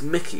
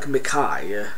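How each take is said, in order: First: The name ends with an 'ee' sound. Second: The name ends with an 'eye' sound. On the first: The speaker calls it right. "apparently it's Mickey, you know, like Mickey Mouse" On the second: The speaker calls it wrong. "it looks like Mikai"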